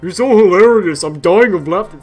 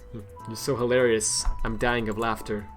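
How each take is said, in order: First: It is read in a deep Patrick voice. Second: It is read in his normal voice.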